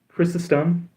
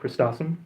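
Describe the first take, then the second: First: No t sound follows the first syllable. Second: A t sound follows the first syllable. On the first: The speaker calls it right. "how I've been told is the correct pronunciation" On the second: The speaker calls it wrong. "that would require another T in the name"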